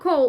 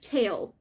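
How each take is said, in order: First: The name is said with an 'oh' vowel. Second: The name is said with an 'ay' vowel. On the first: The speaker calls it wrong. "It's not Cole" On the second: The speaker calls it right. "it's Kale"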